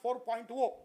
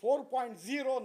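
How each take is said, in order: First: The final digit is said as oh. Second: The final digit is said as zero. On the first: The speaker calls it wrong. "not 4.0" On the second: The speaker calls it right. "It is 4.0"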